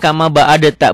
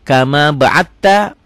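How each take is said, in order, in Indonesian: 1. Bunyi d diucapkan terpisah sebelum t. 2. Bunyi d digabung menjadi t ganda. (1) "Ini kalau nggak nggak belajar tajwid, bacanya kama ba'adatta. Bukan" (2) "Ini diidghamkan ke sini"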